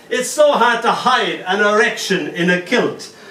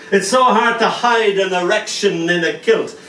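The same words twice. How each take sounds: The two takes are said the same way.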